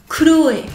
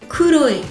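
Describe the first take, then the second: No difference in how they are said.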